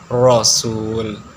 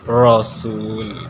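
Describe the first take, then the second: The two takes are said the same way.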